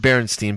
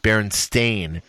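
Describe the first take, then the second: First: The last syllable sounds like 'stine'. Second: The last syllable sounds like 'stain'. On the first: This is the name as remembered from childhood. "I remember Berenstain" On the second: This is the name as it is now. "but now it's Berenstain. Stain"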